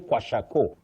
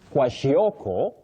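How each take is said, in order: First: It is said in a short local Kiswahili form. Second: It is said in a longer English form. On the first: The speaker calls it wrong. "don't say kwashako in English" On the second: The speaker calls it right. "You say kwashioko"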